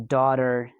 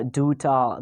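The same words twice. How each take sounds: First: Daughter with the R sounded at the end; American-style R ending on daughter; rhotic daughter. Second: Daughter ending in a schwa; British-style daughter without the R; non-rhotic daughter. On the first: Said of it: "in a stylish way like the Americans do". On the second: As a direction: drop the final R of daughter. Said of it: "they are not pronouncing". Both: Shown as a demonstration.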